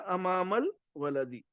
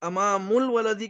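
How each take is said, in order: First: The first word ends with an 'a' vowel. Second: The first word ends with a 'u' vowel. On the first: The speaker calls it right. "ये अरबी के कवायद की रोशनी में बिल्कुल सही है।" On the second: The speaker calls it wrong. "अमामुल वलदी के बजाय"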